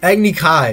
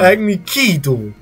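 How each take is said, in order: First: The second word sounds like 'kai'. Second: The second word sounds like 'key'. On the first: "It says Kai" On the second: "Ki in the thing"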